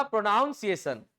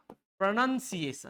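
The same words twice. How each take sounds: First: "प्रोनाउंसिएशन" with an OW diphthong, as in noun; wrong pronunciation. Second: "प्रोनंसिएशन" slowly, with a short NUN; correct pronunciation. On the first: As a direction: say "प्रोनाउंसिएशन" as pro-NOWN-siation. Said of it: "actual में ये प्रोनाउंसिएशन नहीं है". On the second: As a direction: say "प्रोनंसिएशन" as pruh-nun-si-ay-shun. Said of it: "ये है आपका प्रोनंसिएशन". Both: Shown as a demonstration.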